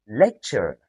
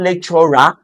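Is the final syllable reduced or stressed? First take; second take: reduced; stressed. First: The final syllable is unstressed and reduced to schwa. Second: The final syllable is stressed with a full vowel. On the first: The speaker calls it right. "but lecture" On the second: The speaker calls it wrong. "So it is not lecturer"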